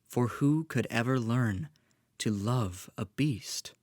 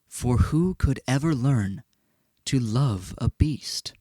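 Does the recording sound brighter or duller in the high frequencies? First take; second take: brighter; duller. First: The sound has more high frequencies, brighter. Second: The sound has fewer high frequencies, less bright. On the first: "now I'm recording on my condenser microphone" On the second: "than out of the dynamic microphone"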